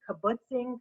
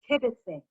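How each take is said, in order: First: The word is said like 'kibbutzing'. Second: The word is said like 'kibitzing'. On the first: The speaker calls it wrong. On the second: The speaker calls it right. "what is she talking about?"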